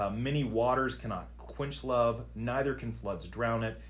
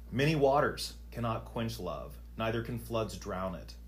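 No difference in how they are said.

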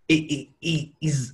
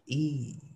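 First: The word is said in a clunky way. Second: The word is said smoothly and easily. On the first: "you can say the same word in a clunky way" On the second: "you say it in an easy way"

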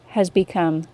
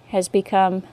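No difference in how they are said.

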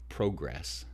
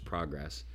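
First: The word is said the Canadian way. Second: The word is said the American way. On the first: "they would say progress" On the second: "versus progress"

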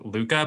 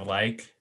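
First: The word sounds like 'looka', with two syllables. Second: The word sounds like English 'like', one syllable. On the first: The speaker calls it right. "there's this book that I mentioned that's called" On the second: The speaker calls it wrong. "but I pronounce it"

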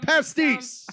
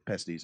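First: It is said loudly and with pride. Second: It is said quickly and without confidence. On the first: The speaker is proud of working there. The speaker calls it right. "You sing it from the mountaintops" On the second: The speaker would rather not talk about it. The speaker calls it wrong. "I feel like you said it so quickly"

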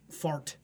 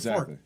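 First: The final T is crisply released and clearly heard. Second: The final T is soft, sounding almost like far. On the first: "I never go fart" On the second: "I say fart"

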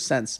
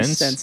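First: The vowel sounds like the one in 'since'. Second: The vowel sounds like the one in 'sense'. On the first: The speaker calls it right. "instead of sense" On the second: The speaker calls it wrong. "I say sense"

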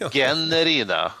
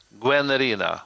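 First: The first syllable starts with a plain 'g' sound. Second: The first syllable starts with a 'gw' sound. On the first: This is how most people end up saying it. "det blir ju oftast Gennerina" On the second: This is how the title is meant to be said. "Gwen. Ja. Guennerina"

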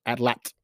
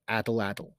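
First: The word is pronounced closer to the native way. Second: The word is pronounced in an anglicized way. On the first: The speaker calls it right. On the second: The speaker calls it wrong.

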